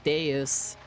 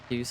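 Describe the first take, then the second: First: Both syllables are sounded with full, distinct vowels. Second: The vowels are reduced and run together. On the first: The speaker calls it right. "Latin has the syllables and the much more pronounced vowel sounds. Like deus" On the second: The speaker calls it wrong. "not just like deus or whatever"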